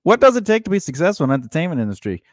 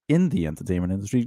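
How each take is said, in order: First: Host announcement. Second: Said in the usual way. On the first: Shown as a demonstration. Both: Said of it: "repeats the topic as host".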